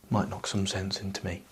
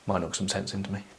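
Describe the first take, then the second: First: It sounds gloomy and self-pitying. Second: It sounds light and playful, like a wink. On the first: The speaker genuinely feels bad about themselves. The speaker calls it wrong. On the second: The speaker is joking to put the other person at ease. The speaker calls it right.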